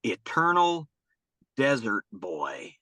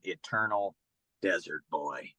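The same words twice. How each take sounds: First: Put-on "Eternal" lifted, then "Desert Boy" drawn out slowly with a pause between; slow dramatic quote. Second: Hushed reveal. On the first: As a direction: give the kid's new name a slow, grand pause-filled reading. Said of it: "He said". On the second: Real, not acted. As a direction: let the favorite name fall quietly, like a secret. Final reveal of favorite nickname.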